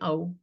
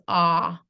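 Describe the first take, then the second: First: The vowel glides like an 'ow' sound. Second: The vowel is an open 'ah' sound. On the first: The speaker has a Maharashtrian accent. "with the Maharashtrian accent, it would be ow" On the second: The speaker is from a Hindi-speaking state. "you're gonna pronounce it as ah, like pots and pans"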